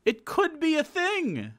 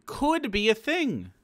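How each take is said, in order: First: It could be a thing squeaked very high and slow; much higher. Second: Said in the usual way. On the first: Shown as a demonstration. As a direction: go way up in pitch on It could be a thing, mocking.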